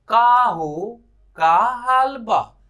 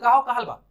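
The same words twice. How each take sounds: First: It is said slowly and drawn out. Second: It is said quickly and clipped.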